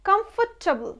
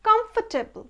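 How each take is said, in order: No difference in how they are said.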